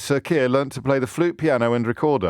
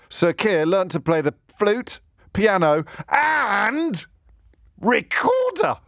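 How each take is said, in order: First: It is read in a plain reading voice. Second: It is read in a put-on, emphatic voice.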